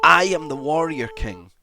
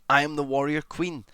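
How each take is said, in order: First: Loud, higher, booming warrior declaration; triumphant roar of confidence; shouted battle cry. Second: Declared proudly. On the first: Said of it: "just shout it". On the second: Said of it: "Or you say". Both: Shown as a demonstration.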